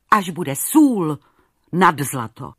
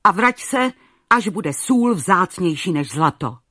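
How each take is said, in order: First: Sůl stretched slow and loud, each word weighted; slow emphatic repeat. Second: Loud angry royal command; thundering king. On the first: King repeating his verdict to Maruška, slow and emphatic. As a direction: hammer home "sůl" slowly. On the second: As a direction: drive her away with a booming order. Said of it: "zaburácel". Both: A narrator's reading.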